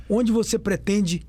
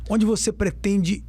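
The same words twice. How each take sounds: The two takes are said the same way.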